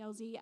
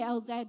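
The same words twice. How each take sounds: First: The letters are said the American way. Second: The letters are said the British way. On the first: "hearing the Americans say" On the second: "I can't say L Z"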